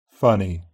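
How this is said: The final ee is a steady pure vowel. "followed by GB"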